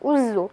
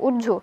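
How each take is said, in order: First: The doubled consonant is a 'z' sound. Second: The doubled consonant is a 'jh' sound. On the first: "আরবিতে" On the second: "বাংলায় পেশ দিয়ে পড়ি"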